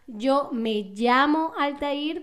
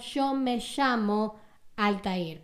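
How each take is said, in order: First: It is spoken in a Venezuelan Spanish accent. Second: It is spoken in an Argentine Spanish accent. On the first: "yo soy de Venezuela y yo digo" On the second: "una persona de Argentina diría"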